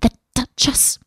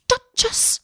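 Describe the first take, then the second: First: Worried rabbit, higher pitch; fretful mutter to itself; anxious muttering. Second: High anxious squeal, softer; panicked cry. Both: A narrator's reading. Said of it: "heard it muttering to itself".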